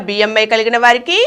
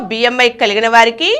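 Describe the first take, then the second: No difference in how they are said.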